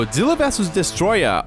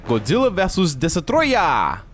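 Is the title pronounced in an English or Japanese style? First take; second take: English; Japanese. First: It is said with Western-style pronunciation. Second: It is said with Japanese-style pronunciation.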